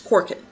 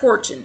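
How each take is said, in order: First: The middle consonant is a hard 'k' sound. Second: The middle consonant is a soft 'ch' sound. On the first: The speaker calls it right. "This is Celtic, so it's Korkin" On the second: The speaker calls it wrong. "It's not Korchin, because I know better"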